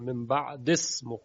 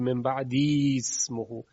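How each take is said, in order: First: The vowel after 'ba'd' is dropped entirely. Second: A long i vowel is kept after 'ba'd'. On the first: The speaker calls it right. "پس یا رو حذف میکنه" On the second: The speaker calls it wrong. "اینجا خلاف قاعده است چون یا امدیه و این گونه تلفظ برای عرب مشکله"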